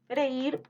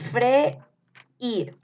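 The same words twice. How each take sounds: First: Said in the usual way. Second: "Freír" split as fre, pause, ír, higher; syllable-split dictation. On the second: Shown as a demonstration. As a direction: break "Freír" clearly between the two vowels. (dictado separando "Freír" en sílabas) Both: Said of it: "les voy a ir dictando".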